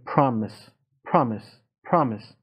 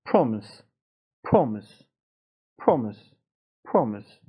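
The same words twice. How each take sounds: First: پرامیس with an open American A; American pronunciation. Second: پرومیس with a rounded British O; British pronunciation. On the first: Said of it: "مثلاً این لغت تلفظ آمریکاییش". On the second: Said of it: "تلفظ بریتانیاییش هم". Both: Shown as a demonstration.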